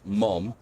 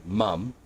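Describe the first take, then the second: First: "mom" with an open ah vowel, American style; American pronunciation. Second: "mum" with a short u vowel, Australian style; Australian pronunciation. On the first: Streamer showing viewers the American word, "mom" with an open ah. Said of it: "in American English pronounced". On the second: Streamer showing viewers the Australian word, "mum" with a u sound. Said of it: "in Australian English, the word". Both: Shown as a demonstration.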